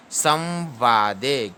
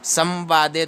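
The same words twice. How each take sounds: First: Very slow "संवादे" as saw-vaa-de; stretched, three-part "संवादे"; correct reading. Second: Quick "संवादे" as sam-vaade; run-together "संवादे", no held nasal; wrong reading. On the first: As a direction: hold the nasal half v in "संवादे", then long vaa. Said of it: "ऐसे पढ़ना है". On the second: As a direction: rush "संवादे" with a short plain m. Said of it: "तो गलत है बिल्कुल ही". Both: Shown as a demonstration.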